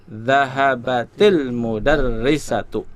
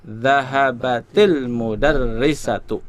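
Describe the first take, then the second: First: The words run together with a linking vowel. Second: The words run together with a linking vowel.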